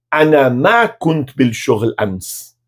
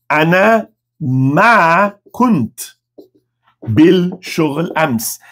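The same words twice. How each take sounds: First: "ana ma kunt bil shoghl ams" slow but in one connected phrase; joined-up slow demo. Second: "Ana... ma... kunt... bil... shoghl... ams", very slow, long gaps; word-by-word demo. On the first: Teacher gives the whole negative answer in Arabic, slowly connected. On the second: Teacher introduces the negative answer, very slowly word by word. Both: Shown as a demonstration.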